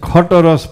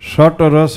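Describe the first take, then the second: First: The first word begins with a 'kh' sound. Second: The first word begins with an 'sh' sound. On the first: "ખટ રસ પણ બોલાય" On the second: "શટ રસ બોલાય"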